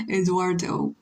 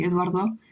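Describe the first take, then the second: First: Eduardo said the English way, full English r and hard t-like d; English pronunciation. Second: Spanish pronunciation. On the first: Streamer comparing two languages, English pronunciation of Eduardo. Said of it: "in English you say". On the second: Streamer comparing two languages, Spanish pronunciation of Eduardo. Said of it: "in Spanish you say". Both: Shown as a demonstration.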